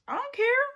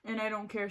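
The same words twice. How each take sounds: First: Higher and louder defiant retort, rising at the end; sassy defiance. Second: Said in the usual way. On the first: Real, not acted. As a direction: toss it off defiantly at the haters. Defiant about talking of boyfriend.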